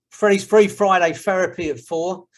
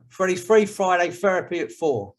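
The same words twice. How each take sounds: First: A light London accent on Freddie's Free Friday Therapy at four. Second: Freddie's Free Friday Therapy at four in a light London accent. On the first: Host teaching the group his catchphrase in a light London accent. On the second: Host repeating his catchphrase in a light London accent. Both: Shown as a demonstration. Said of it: "You have to learn to say it like that, with a London accent".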